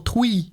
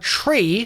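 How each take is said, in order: First: The r sound is replaced by a w. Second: The r sound is said clearly. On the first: "or twee" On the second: "the word tree"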